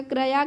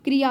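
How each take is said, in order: First: क्रया said with a neutral schwa after kr, "kra-ya"; wrong form read out. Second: क्रिया with a clear short i after kr, "kri-ya"; correct form. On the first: Teacher reading a misspelt word aloud, schwa after kr. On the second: Teacher correcting students' spelling, short i after kr. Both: Shown as a demonstration. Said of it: "क्रिया हो जाता है".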